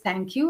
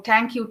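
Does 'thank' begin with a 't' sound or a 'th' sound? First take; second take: th; t. First: The word begins with a 'th' sound. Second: The word begins with a plain 't' sound. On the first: The speaker calls it right. "I know there's thank you" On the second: The speaker calls it wrong. "I wouldn't go around saying"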